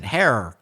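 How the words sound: It is said in an American accent. "Or I could have gone American and said hair"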